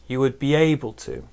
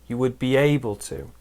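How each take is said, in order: The two takes are said the same way.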